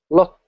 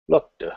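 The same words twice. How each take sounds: First: The word ends with a sharp t sound. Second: The word ends with a softened d sound. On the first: "The trailing consonant is very sharp" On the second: "with a softer d"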